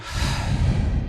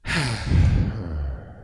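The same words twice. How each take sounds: First: Long voiceless release of breath; open, airy sigh out; natural exhale sigh. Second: Voiced, falling sigh on the exhale; long audible sigh sliding down; sigh with sound. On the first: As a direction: let the built-up breath go uncontrolled. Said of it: "just let that naturally exhale". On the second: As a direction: let the outbreath carry an uncontrolled sound. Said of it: "Give it a sound". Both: Shown as a demonstration.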